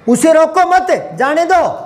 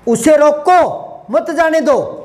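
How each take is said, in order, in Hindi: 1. विराम 'mat' के ठीक बाद आता है। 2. विराम 'roko' के ठीक बाद आता है। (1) "भेजना है" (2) "बिठाना है"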